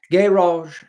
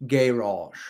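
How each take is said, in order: First: Posh British GARage, higher and louder. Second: Said in the usual way. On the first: Shown as a demonstration. Streamer showing chat his British "garage". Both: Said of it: "in a British accent".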